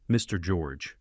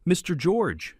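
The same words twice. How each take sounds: First: Calm, respectful address. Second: High, pleading victim voice; victim mode. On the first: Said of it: "I said respectfully". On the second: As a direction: play the wounded victim. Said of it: "snapped into victim mode". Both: A narrator's reading.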